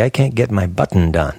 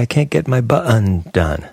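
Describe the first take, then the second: First: Button is said with a plain English pronunciation. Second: Button is said with a French-sounding pronunciation. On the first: This is the speaker's own way of saying it. "We would say" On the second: Someone else says it this way. "They have that French sounding half in"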